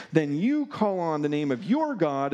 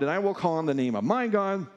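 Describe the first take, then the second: First: "you" and "your" picked out against the rest; stress on YOU and YOUR. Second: "my" picked out against the other side; stress on MY. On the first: Elijah challenges Baal's prophets, stress on "you" and "your". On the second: Elijah sets his God against theirs, stress on "my". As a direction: lean on "my", then fall. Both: Acted. Elijah contrasts the two gods.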